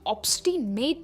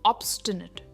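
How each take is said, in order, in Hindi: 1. आख़िरी अक्षर 'nate' जैसा सुनाई देता है। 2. आख़िरी अक्षर 'nut' जैसा सुनाई देता है। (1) "इसकी प्रोनाउंसिएशन ऑब्स्टिनेट नहीं है" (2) "एंड में हम कहते हैं नट"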